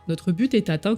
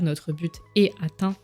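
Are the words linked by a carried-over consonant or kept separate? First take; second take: linked; separate. First: The final consonants link into the following vowels. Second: The words are said without linking consonants. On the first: "on va la faire" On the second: "On n'est pas obligé de faire la liaison, on peut dire"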